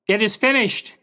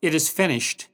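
First: High, raised final cry; Jesus calling out. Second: Restrained, spent final words; Jesus's last strength. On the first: Jesus calling out before death, loud cry. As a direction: call it out strongly, pitch well up. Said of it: "John heard Jesus call out". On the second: Jesus dying on the cross, subdued last words. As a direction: say it with the last ounce of strength, understated. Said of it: "With his last ounce of strength". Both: Retold or imitated.

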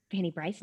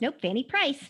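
First: "Fanny Bryce" with a B, asked with a rise; unsure "Fanny Bryce?" with a B sound; wrong name. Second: "Fanny Price" with a clear P, said firmly; correcting to "Fanny Price", crisp P; corrected name. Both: Shown as a demonstration.

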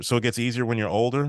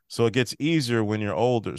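First: Put-on quick "So it gets easier when you're older?" with a rising question at the end. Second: Said in the usual way. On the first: Shown as a demonstration. Host rereading Ellie's line as a quick question.

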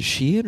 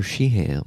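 First: Sheehan said as SHEE-in; reduced second syllable. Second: Sheehan said as SHEE-han; full second syllable. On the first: Asking how the bassist's name goes, Sheehan as SHEE-in. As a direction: Sheehan with the h dropped, short "in" ending. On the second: Offering the other way, [name] as SHEE-han. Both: Shown as a demonstration. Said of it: "Is it [name] or [name]?".

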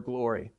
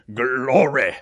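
First: Said in the usual way. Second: "Glory" with a loud, throaty rolled start; "Glory" shouted from deep in the throat like a church affirmation; guttural GLORY. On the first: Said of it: "we would do it with this roll". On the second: Shown as a demonstration. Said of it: "this, this throat guttural thing".

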